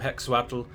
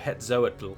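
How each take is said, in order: First: The middle consonant is sounded as 'ks'. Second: The middle consonant is sounded as 'z'. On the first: The speaker calls it right. "I think in that instance it's an X" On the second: The speaker calls it wrong. "some people pronounce the X as a Z"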